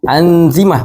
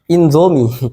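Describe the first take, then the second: First: The word starts with an 'an' sound. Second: The word starts with an 'in' sound. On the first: The speaker calls it right. "Ini anzimah" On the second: The speaker calls it wrong. "bukan inzomi"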